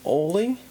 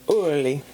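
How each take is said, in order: First: The name sounds like oh-lay. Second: The name sounds like ur-lee. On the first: The speaker calls it wrong. "it's not said like Ole" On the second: The speaker calls it right. "the pronunciation of it is Urli"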